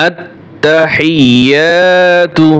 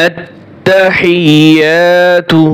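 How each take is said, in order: No difference in how they are said.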